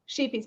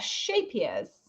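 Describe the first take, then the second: First: The first vowel sounds like 'ee' in sheep. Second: The first vowel sounds like 'ay' in shape. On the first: The speaker calls it wrong. "I used to call it sheepies" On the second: The speaker calls it right. "it's pronounced shapiers"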